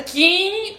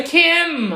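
First: "Kim" with a nasal vowel and lips never closed; "Kim" mispronounced with an open nasal ending; final M left open. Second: "Kim" ending with both lips pressed on the M; teacher's clear lip-closed M in "Kim"; final M closed. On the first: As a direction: drag out "Kim" Brazilian-style, dropping the M. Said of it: "Kim não é". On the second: Colocar os dois lábios juntos e pronunciar. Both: Shown as a demonstration.

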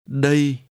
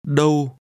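First: "Đây" alone on a level tone; contrasting "here". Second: "Đâu" alone on a level tone; contrasting "where". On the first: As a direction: say "Đây" with an "ay-ee" glide. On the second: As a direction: say "Đâu" with a rounded "oh-oo" glide. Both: Shown as a demonstration. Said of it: "compare where and here".

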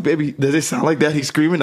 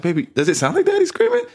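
First: Said in the usual way. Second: Much higher, sweet coaxing voice; soft high baby talk. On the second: Shown as a demonstration. Father demonstrating his gentle voice to his daughter, high and sweet. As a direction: coo it up high to a little child. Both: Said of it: "exactly how I'm talking".

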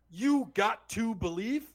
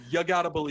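First: "You got to believe" slow, got to split apart; wrong way. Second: "You gotta believe" run together as gotta; quick New York gotta; right way. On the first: Mocking the fan's sign, slow deliberate got to. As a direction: lean on got and to separately. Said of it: "You don't go". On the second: Fan insisting the cry is said gotta. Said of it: "even if you don't wanna do". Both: Shown as a demonstration.

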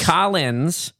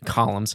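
First: "Collins" with a clear -lins ending, KAH-linz; corrected name. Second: "Columns" said as the word for pillars, KAH-lumz; misspoken name. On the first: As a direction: fix it to the surname "Collins". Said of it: "like the name, Collins Custom Furnishings". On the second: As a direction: slip into "Columns" before the fix. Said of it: "Collins, like the name". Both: Real, not acted.

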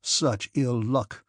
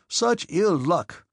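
First: Slow, rueful exclamation; lamenting. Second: Slow, higher, exasperated cry; emphatic lament. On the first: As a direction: draw each word out in dismay. Denisov laments his losses at cards. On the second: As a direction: wail each word out with force. Denisov repeats his lament, stronger. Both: A narrator's reading.

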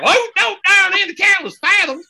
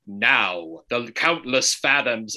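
First: High, loud hammed-up narrator; mock fancy narrator. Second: Slow, weighty narrator voice; fancy enunciating narrator. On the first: Host parodying the video's narrator, shrieky exaggerated fancy voice. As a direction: send up the fancy diction at the top of your voice. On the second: Retold or imitated. Host imitating the video's narrator, slow enunciated fancy voice. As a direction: draw out each word with fancy, careful diction. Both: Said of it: "because he was enunciating".

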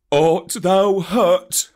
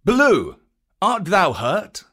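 First: Tender Baloo. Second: Python Kaa asking. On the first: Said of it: "said Baloo, hugging him softly". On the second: Kaa calling out to Baloo after the battle. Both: A narrator's reading.

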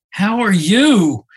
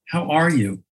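First: "you" high, loud and drawn out in "How are you?"; slow down and land hard on "you"; slow, stress on "you". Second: "are" leaned on lightly in a casual "How are you?"; casual greeting, stress on "are". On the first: Man finally asks the patient with sincere weight on "you". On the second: Man greets the famous cancer patient, stress on "are". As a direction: toss off "How are you?" with a little push on "are". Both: Retold or imitated. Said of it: "putting different emphasis on the different words".

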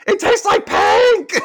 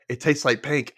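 First: Very high, loud, drawn-out squeal; drunken yell. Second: Said in the usual way. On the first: Retold or imitated. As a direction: shriek it slowly like a giddy drunk. Quotes drunk Rachel, then yells it. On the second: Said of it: "She's like".

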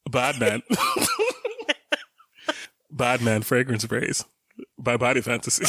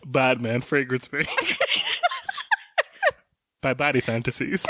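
First: Forcing a deep voice. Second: Laughing through a fake deep announcer voice; half-laughing mock deep commercial voice; forcing a deep voice. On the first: Retold or imitated. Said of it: "[name], can you say it again?". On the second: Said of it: "his voice was, like, fake deep".

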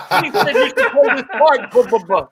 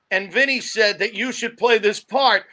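First: Vinny Nardiello. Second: Said in the usual way. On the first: Shown as a demonstration. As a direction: imitate him, tacking babble onto the end. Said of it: "so used to doing Vinny that we just add that "ba ba". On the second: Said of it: "so used to doing Vinny".

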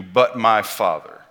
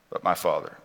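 First: Slow, weighty "but my Father", stressed on Father; emphatic. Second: Softer, lower repeat of "But my Father"; quiet echo. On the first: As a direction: lean on "but my Father" slowly. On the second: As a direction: let "But my Father" sink into a hushed echo. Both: Shown as a demonstration.

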